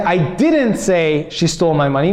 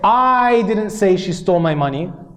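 First: The word didn't carries the stress. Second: The word I carries the stress. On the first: The speaker denies saying it. "meaning I didn't say it" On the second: Someone else said it. "because I emphasized the word I"

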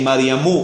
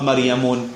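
First: The name ends in a plain u vowel. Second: The name ends in u followed by n. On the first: The speaker calls it right. "we say Maryamu" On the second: The speaker calls it wrong. "not Maryamun"

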